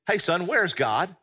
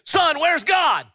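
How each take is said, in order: First: It is asked calmly and plainly. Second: It is asked loudly, almost shouted.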